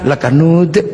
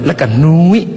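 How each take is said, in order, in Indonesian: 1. Kata itu berakhir dengan bunyi 'd'. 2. Kata itu berakhir dengan bunyi 'i'.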